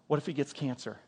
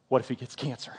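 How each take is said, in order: First: Soft, much quieter worried question; wife's hushed worry. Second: Disbelieving echo. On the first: Wife tearfully asking husband at night, hushed worry. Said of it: "she starts crying". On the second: Husband repeating his wife's fear back, laughing disbelief. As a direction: repeat her words with a stifled laugh. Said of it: "I'm like". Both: Retold or imitated.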